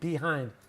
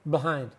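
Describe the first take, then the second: First: The word is articulated fully with clear mouth movement. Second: The word is said loosely with little mouth movement. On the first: The speaker calls it wrong. "that's perfect pronunciation" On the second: The speaker calls it right. "We don't move our mouths a lot"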